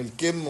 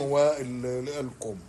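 First: "الكم" said al-kimm, with kasra; short i vowel. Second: "والكم" said with kumm, with damma; short u vowel. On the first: Linguist separating two look-alike words, "الكم" said al-kimm. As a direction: say "الكم" with an i after the k. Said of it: "يعني جمع كم بالكسر". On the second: Linguist separating two look-alike words, "والكم" ending in kumm. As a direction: say "والكم" with a u after the k. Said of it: "بضم الكاف". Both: Shown as a demonstration.

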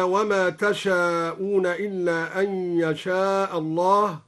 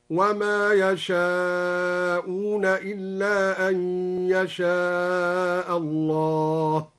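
First: Said in the usual way. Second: Very slow chanted يشاءون with ya; ya reading of يشاءون. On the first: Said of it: "قوله تعالى". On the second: Shown as a demonstration. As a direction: intone يشاءون with ya, drawn out. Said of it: "قرأ تشاءون بياء الغيبة هكذا". (ترتيل بطيء جدا ليشاءون بالياء)

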